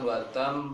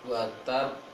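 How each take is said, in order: First: The final b has air flowing like an m. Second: The final b is closed at the lips only. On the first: The speaker calls it wrong. "Itu seperti ada mim, namun tidak sempurna" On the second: The speaker calls it right. "hanya di bibir saja untuk ba tersebut"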